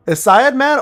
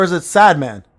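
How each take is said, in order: First: "Syed" said as SIGH-ed before "man"; two-syllable Syed. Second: "sad" said as the plain word before "man"; one-syllable sad. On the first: Asking a chatter about the name, "Syed" pronounced sigh-ed. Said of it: "or is it sad man". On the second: Asking a chatter about the name, "sad" pronounced as one syllable. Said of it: "I'm asking the real question". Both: Shown as a demonstration.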